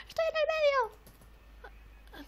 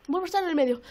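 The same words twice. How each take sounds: First: Very high, drawn-out squeal; slow falsetto wail. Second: Said in the usual way. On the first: Real, not acted. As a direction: stretch it out way up high. Squealing at landing in the middle.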